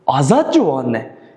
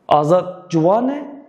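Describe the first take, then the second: First: The stress is on Azat. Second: The stress is on Juwane.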